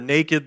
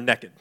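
First: The word is said at an unhurried pace. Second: The word is rushed through as fast as possible. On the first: Being unclothed is nothing to be ashamed of. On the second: Being unclothed is a source of shame.

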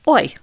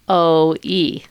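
First: Two vowels are said quickly, blended into one. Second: Two vowels are said slowly as separate sounds. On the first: "we speed it up, we get real fast" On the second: "We're really saying o, and then we're saying e"

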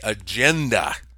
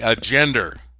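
First: It is said the American way, without final R. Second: It is said the English way, with added R.

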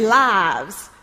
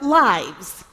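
First: It is said with a Richmond-style accent. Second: It is said with a Michigan-style accent. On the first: This is the way picked up in the new place. "I now say lives" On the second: This is the speaker's original way of saying it. "instead of lives"

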